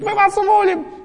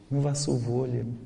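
First: It is said in a tense, hysterical way. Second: It is said lightly and calmly. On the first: The threat may not be carried out. The speaker calls it wrong. "Если женщина истерит, не факт" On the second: The threat is real and will be carried out. The speaker calls it right. "она просто вот чуть-чуть сказала"

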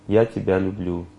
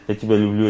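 First: It is said once, softly, with feeling. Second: It is said mechanically, without feeling. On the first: The words carry a real memory and feeling. The speaker calls it right. "просто говорит один раз и без всякой нажима, просто вместе с этой памятью" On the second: The words are said without real feeling. The speaker calls it wrong. "это будет просто пустая болтовня"

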